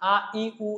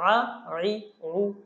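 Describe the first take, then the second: First: Each syllable starts with a simple glottal stop. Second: Each syllable starts with a constricted throat sound. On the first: The speaker calls it wrong. "এরকম হামজার মতো বলে ফেলে" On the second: The speaker calls it right. "এভাবে বলবো"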